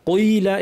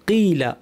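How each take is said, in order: First: The first syllable is exaggeratedly heavy, almost 'qai'. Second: The first syllable is only moderately heavy. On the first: The speaker calls it wrong. "এভাবে না" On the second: The speaker calls it right. "অতিরঞ্জনের প্রয়োজন নেই"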